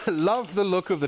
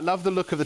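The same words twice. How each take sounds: First: It is read in a put-on regional accent. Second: It is read in the speaker's normal accent. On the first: "I don't know why I'm doing that accent" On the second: "I'm not going to attempt a Welsh accent"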